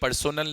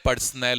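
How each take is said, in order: First: The middle syllable has a full 'so' vowel. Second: The middle syllable is reduced, like 'person'. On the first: The speaker calls it wrong. "ये पर्सोनल नहीं होता है" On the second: The speaker calls it right. "पर्सनल होता है"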